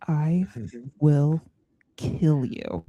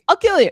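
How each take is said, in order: First: It is said in a menacing, intense way. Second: It is said in a light, joking way.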